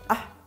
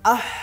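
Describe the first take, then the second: First: The h is pressed and short on breath. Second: The h is breathed out fully and strongly. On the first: The speaker calls it wrong. "terlalu menekan sehingga penghembusan atau penghabisan nafasnya kurang" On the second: The speaker calls it right. "dihembuskan dengan maksimal"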